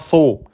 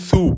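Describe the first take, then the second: First: The syllable ends in an 'oh' vowel. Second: The syllable ends in an 'oo' vowel. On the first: The speaker calls it wrong. "pas so" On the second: The speaker calls it right. "J'ai bien dit sou"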